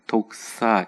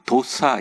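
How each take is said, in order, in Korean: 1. 약한 k 소리로 발음돼요. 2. k 소리 없이 발음돼요. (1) "약한 키읔이 들어갑니다" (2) "에이아이론 도사 이렇게 표현하기도 하고"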